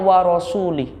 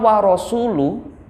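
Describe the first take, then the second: First: The word ends with an 'i' vowel. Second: The word ends with a 'u' vowel. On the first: God disowns the messenger as well. The speaker calls it wrong. "orang membacanya wa rasuli. Itu maknanya sudah berbalik" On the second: The messenger also disowns the idolaters. The speaker calls it right. "Kata wa rasulu"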